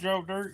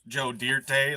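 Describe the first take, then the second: First: The last word is said plainly, like 'dirt'. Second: The last word gets a fancy, dressed-up ending. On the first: The name is taken as it is. The speaker calls it right. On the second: The name is made to sound more elegant. The speaker calls it wrong.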